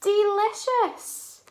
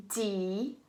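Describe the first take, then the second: First: "Delicious" joined up, high, loud and slow; blended whole word. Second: "Delicious" in three parts with pauses between; syllable by syllable. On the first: Teacher models the word for children, "Delicious" blended, high and emphatic. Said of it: "And the syllables are". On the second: Teacher leads children through syllables, "Delicious" chopped into three parts. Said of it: "let's do that together". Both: Shown as a demonstration.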